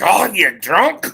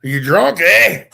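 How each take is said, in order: First: Slow, higher, louder mock Scottish; Scottish accent. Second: Irish accent, lifting into a louder "eh?"; Irish accent as question. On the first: Co-host contrasting Scots with Irish, mock Scottish accent. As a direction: exclaim it in a rough Scottish accent. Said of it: "Scott's like". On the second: Co-host showing how Irish sounds like a question, Irish accent. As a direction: ask it with a mock Irish lilt. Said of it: "it sounds like a question". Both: Shown as a demonstration.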